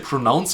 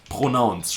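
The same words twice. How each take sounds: First: The R is an American English R. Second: The R is a German throaty R. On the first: "I don't say pronounce anymore" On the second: "pronouncing the R's the German way"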